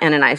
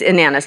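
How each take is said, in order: First: The name is said not rhyming with bananas. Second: The name is said rhyming with bananas. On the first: The speaker calls it wrong. "not Ananias" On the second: The speaker calls it right. "It rhymes with bananas"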